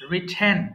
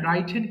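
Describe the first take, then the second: First: The first vowel sounds like the short vowel in 'rip'. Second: The first vowel sounds like the vowel in 'rye'. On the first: The speaker calls it right. "It must be রিটেন" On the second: The speaker calls it wrong. "রাইটেন কিন্তু রং pronunciation"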